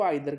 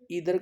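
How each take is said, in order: First: The first vowel sounds like 'eye'. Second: The first vowel sounds like 'ee'. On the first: This is the British form. "British language में इसको आइदर कहा जाता है" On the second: This is the American form. "American में इसको ईदर कहा जाता है"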